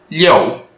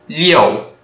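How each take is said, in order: Both takes have the same delivery.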